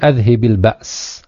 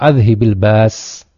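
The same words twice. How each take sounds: First: The word has a glottal stop before the s. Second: The word has no glottal stop before the s. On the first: "bisa dibaca ba's atau ba's" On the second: "alifnya hilang"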